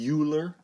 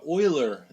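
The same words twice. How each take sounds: First: The name is said as English spelling suggests. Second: The name is said with German pronunciation. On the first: The speaker calls it wrong. "It looks like Euler, but don't say Euler" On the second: The speaker calls it right. "This is a German name, so it's pronounced Euler"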